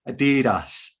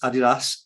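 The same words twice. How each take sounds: First: It is said the usual American way. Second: It is said the usual British way. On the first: This is how people in the US say it. "in the U S they say Adidas" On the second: This is how people in the UK say it. "we say it slightly different in the U K as Adidas"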